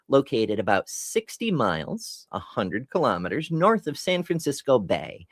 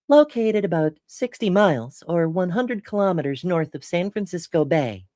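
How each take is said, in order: First: It is read in a normal speaking voice. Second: It is read in a put-on announcer voice.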